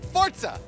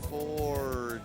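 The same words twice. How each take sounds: First: It is said loudly and forcefully. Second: It is said slowly and drawn out. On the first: "now say it loud" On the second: "Say it slower"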